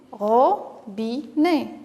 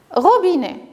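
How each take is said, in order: First: "Robinet" very slow, ro, bi, né; syllable by syllable. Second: Said in the usual way. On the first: Shown as a demonstration. Teacher helps children place a cross, syllable by syllable. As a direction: pull "Robinet" apart with a pause after each syllable. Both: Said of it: "découper chaque mot".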